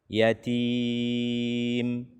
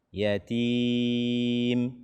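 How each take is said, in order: Both takes have the same delivery.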